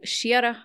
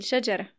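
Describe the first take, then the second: First: شيرة, y glide replacing the j; j turned to y. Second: Said in the usual way. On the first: Shown as a demonstration. Host repeats Banu Tamim's form, j turned to y. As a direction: say شيرة as shyara, with a y. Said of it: "يبدلون الجيم ياء". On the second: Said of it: "بدل".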